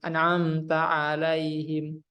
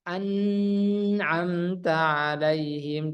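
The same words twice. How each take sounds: First: The nasal n is cut short. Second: The nasal n is held too long. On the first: "Kalau kurang seperti ini" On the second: "kalau eh, berlebihan, dua harokat ditahan"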